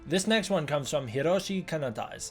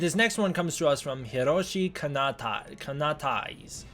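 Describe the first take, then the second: First: It is said smoothly and confidently. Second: It is said hesitantly, stumbling over the name.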